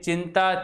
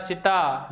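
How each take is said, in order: First: चिंता said with a clear nasal न before त. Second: चिता said plain with no nasal sound; without nasal. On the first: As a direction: sound the nasal in चिंता fully. (चिंता में अनुस्वार साफ़ बोलें) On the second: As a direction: drop any nasal in चिता. (चिता बिना अनुनासिक ध्वनि के बोलें) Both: Shown as a demonstration. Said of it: "देखिए अंतर".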